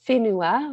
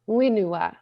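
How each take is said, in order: First: The word begins with an F-like sound. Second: The word begins with a plain W sound. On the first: "we have a W H that sounds like a F sound" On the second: "he would drop the H and say wenua"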